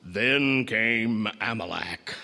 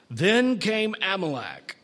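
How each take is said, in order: First: Low, slow big-screen trailer announcer; ominous deep theater voice; deep movie-trailer voice. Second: Said in the usual way. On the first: Acted. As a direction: drop it deep and draw it out like a cinema voiceover. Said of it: "with that deep voice saying".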